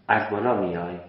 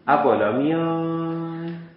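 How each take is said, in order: First: The words are said at normal, even length. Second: The words are stretched out in a regional accent. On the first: The speaker calls it right. "من چهار تا انگشتم و همزمان آوردم" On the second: The speaker calls it wrong. "حرف و کلمات رو میکشن"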